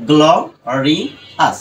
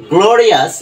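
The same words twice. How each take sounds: First: গ্লোরিয়াস split into three separated syllables; broken into syllables. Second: গ্লোরিয়াস in one joined piece, higher and louder; whole-word pronunciation. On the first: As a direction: sound out গ্লোরিয়াস part by part. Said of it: "এটা যদি আমি উচ্চারণ করি". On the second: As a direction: say all of গ্লোরিয়াস at once, raised and strong. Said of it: "পুরোটা যদি এবার যদি উচ্চারণ করি". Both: Shown as a demonstration.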